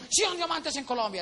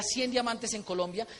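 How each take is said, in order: First: Mock rally chant, a bit higher; chanted, call it out like a stadium crowd; chanted battle cry. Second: Said in the usual way. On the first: Crowd chanting the slogan at the convention, mock chant. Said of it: "entonces decían". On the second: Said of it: "un grito de guerra".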